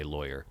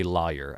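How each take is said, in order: First: "lawyer" as LOY-er; own pronunciation. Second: "liar" as LAH-yer, open first vowel; rejected pronunciation. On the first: Quiz taker showing their own way, LOY-er. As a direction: say "lawyer" with an OY sound first. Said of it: "I say lawyer". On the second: Quiz taker showing what they don't say, LAH-yer. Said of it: "I don't say liar". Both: Shown as a demonstration.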